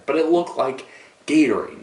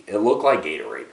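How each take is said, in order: First: Looked raised and pushed harder; stress on looked. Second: Said in the usual way. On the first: Acted. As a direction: hit looked up high and firm. Repeats the Gatorade image stressed.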